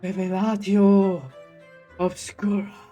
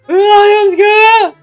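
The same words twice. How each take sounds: First: It is said slowly and carefully. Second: It is said fast and forcefully.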